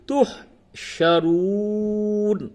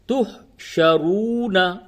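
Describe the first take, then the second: First: The word ends on the consonant 'n'. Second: The word ends with a final 'a' vowel. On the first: "इस जगह पे वक्फ करेंगे तो नून साकिन हो जाएगा" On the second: "नून जबर ना"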